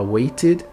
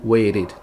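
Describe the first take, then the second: First: The middle T is pronounced strongly and clearly. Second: The middle T is pronounced weakly and softly.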